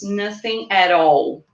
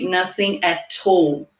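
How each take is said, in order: First: Said in a non-London accent. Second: Said in a London accent, linked like 'tall'. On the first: "what I would say is" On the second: "if I'm from London, for example, I would say"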